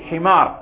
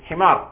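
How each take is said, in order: No difference in how they are said.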